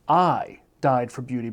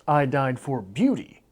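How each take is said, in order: First: The stress is on the word I. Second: The stress is on the word beauty. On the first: It was this person, not someone else, who died. "Emphasis on I" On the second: There were other things one could die for. "there is some other option besides beauty for which to die"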